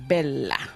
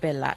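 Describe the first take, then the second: First: It is said with an Italian pronunciation. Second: It is said with an English-style pronunciation. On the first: "Italians will call it" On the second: "You want to pronounce it"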